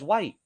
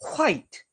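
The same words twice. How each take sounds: First: It starts with a plain W sound. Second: It starts with a breathy H before W.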